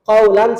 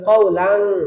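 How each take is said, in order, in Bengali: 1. n ধ্বনিটি সরল ও স্পষ্টভাবে বলা হয়। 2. n ধ্বনিটি নাকি গুঞ্জনে চাপা পড়ে যায়। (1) "ছিল" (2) "এখন হয়ে যাবে"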